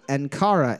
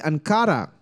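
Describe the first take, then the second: First: The name is said with an English accent. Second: The name is said with a Spanish accent. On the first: "and then I said them all anglicized" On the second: "I said them all with a Spanish accent"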